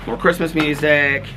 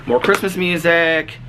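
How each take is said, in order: Both takes have the same delivery.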